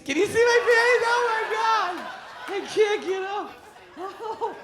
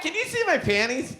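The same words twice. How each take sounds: First: Put-on high, loud shrieking drunk; drunk wife. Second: Put-on high giggly drunk question; drunk wife. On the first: Wife on the floor shrieking to the crowd, high loud drunk voice. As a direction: squeal it louder, giddy. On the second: Wife on the floor asking the crowd, high tipsy voice. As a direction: ask it tipsy and coy.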